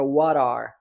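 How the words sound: An American accent, the T sounding like R.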